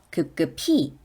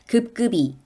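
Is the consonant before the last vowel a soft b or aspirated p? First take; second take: aspirated p; soft b. First: The middle consonant sounds like an aspirated p. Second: The middle consonant sounds like a plain b. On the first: The speaker calls it right. "급급히로 발음합니다. 그럼 갑자기 피, 피읍의 발음이 나는" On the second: The speaker calls it wrong. "급급이 라고 발음하나요?"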